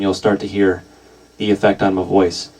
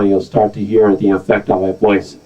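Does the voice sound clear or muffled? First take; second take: clear; muffled. First: The voice sounds fairly clear and full. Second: The voice sounds dark and muffled by filtering.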